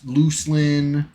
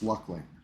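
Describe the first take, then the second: First: The first syllable sounds like 'loose'. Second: The first syllable sounds like 'luck'. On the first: The speaker calls it wrong. "not uh, not Lus Looselin" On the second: The speaker calls it right. "Pronounced Lucklin"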